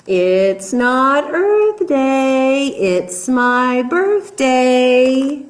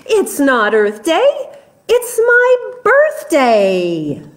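First: Monkey drawing out each word, slow and playful; slow singsong monkey. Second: Monkey climbing much higher on birthday; excited monkey. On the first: Monkey teasing the jungle animals, slow singsong. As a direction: stretch the refrain out slowly, teasing. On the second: Monkey boasting to the animals, high excited squeal. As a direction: squeal the last words up high. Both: Acted.

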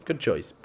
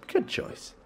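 First: Said in the usual way. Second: Whispered, softer good choice. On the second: Shown as a demonstration. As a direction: breathe it out in a sly whisper. Repeats tease unvoiced.

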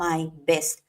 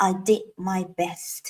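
First: Slow drill. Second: "I did my best" drawn out word by word; slow model. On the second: Teacher models "I did my best" slowly for the class. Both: Shown as a demonstration. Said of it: "เราก็จะทำเป็น I did my best".

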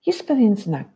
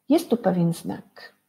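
First: Pewien pushed louder with a falling tune; teacher stressing "pewien". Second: Said in the usual way. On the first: Shown as a demonstration. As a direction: lean hard on "pewien" so the children hear it. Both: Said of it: "A w tym wierszyku".

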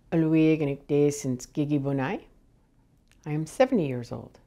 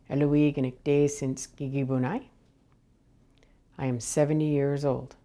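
Both takes have the same delivery.

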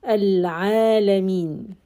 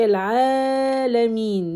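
First: Al Alameen, slow, stretch held only two counts. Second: Al Alameen with the final ee held too long; wrong long stretch. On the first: Teacher modelling correct stretch length. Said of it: "don't stretch more than two". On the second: Teacher showing students the overlong stretch. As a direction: overstretch Al Alameen to show the mistake. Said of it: "Don't say Al Alameen". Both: Shown as a demonstration.

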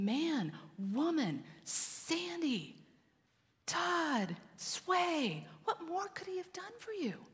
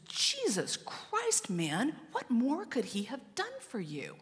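First: High, softened, imploring father; acted heartbreak, pitched high and held back in volume; pained frustration. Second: Acted high-pitched exasperation, stretched out; seething mother. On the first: Father God calling his children by name, pained pleading. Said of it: "in pain and frustration". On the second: Mother standing to rebuke her adopted son, seething in retelling. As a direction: draw out the oath in high, controlled outrage. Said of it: "she's seething".

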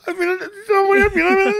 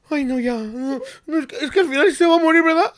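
First: Very high sobbing voice with a real cry; mock sobbing. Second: High, fast, whimpering imitation of crying; mock crying. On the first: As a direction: break into a hammed-up sob. Retelling crying, fuller sob. (sollozo exagerado y muy agudo) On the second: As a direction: wail it like a kid about to sob. Retelling crying at dog video. (imitando llanto, agudo y rápido)

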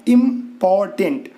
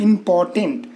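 First: इंपॉर्टेंट slowly split into three separate syllables; broken into syllables. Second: Said in the usual way. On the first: Shown as a demonstration. Teacher showing students the three syllables, इंपॉर्टेंट slowly broken apart. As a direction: say इंपॉर्टेंट piece by piece, pausing after each syllable. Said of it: "तीन यहाँ पर आ गए". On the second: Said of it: "ये सब syllable मतलब टुकड़ा होता है".

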